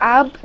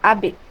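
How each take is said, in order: First: The final consonant stops dead without any echo. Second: The final consonant is released with an echoing bounce. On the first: The speaker calls it wrong. "এখানে কিন্তু আব বলা যাবে না" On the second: The speaker calls it right. "এখানে বে বলতে হবে"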